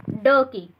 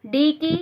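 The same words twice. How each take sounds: First: "ड" as a short sound, not the name "डी"; letter sound. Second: Said in the usual way. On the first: Shown as a demonstration. Teacher drilling learners on strokes, "ड" said as the letter's sound. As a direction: say "ड" as the bare consonant sound. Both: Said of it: "ड की sound".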